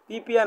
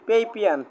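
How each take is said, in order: First: The first syllable has an 'ee' vowel. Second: The first syllable has an 'ay' vowel. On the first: The speaker calls it wrong. "পিপিয়ান না" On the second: The speaker calls it right. "এটা হচ্ছে পেইপিয়ান"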